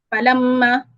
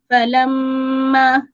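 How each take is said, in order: First: The nasal sound is held for one beat. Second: The nasal sound is held for two beats. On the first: The speaker calls it wrong. "dia satu harakat" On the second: The speaker calls it right. "gunnah itu sepatutnya dua harakat"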